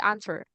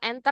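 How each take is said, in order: First: The first vowel sounds like A. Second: The first vowel sounds like E. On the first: The speaker calls it right. "tapi answer. Kayak A gitu awalnya" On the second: The speaker calls it wrong. "Cara bacanya bukan enter ya"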